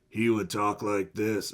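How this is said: It is said in a slightly raspier voice.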